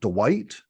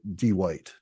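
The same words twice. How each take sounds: First: The name is said in a plain accent. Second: The name is said in a Southern drawl.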